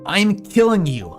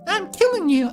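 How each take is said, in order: First: It is said in the speaker's ordinary voice. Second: It is said in a put-on character voice.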